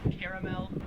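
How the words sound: The word is said with an Australian pronunciation. "or as it said in Australia"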